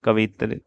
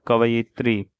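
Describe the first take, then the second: First: कवित्री cut to ka-vi-tri; wrong pronunciation. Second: Said in the usual way. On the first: Shown as a demonstration. Teacher contrasts for students, कवित्री a syllable short. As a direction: skip the यि in कवित्री. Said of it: "कवित्री नहीं होता". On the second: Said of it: "कवयित्री होता है".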